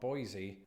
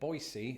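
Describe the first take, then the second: First: It is pronounced the way locals do not. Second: It is pronounced the way locals say it. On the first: The speaker calls it wrong. "and not Boise" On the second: The speaker calls it right. "locals pronounce it Boise"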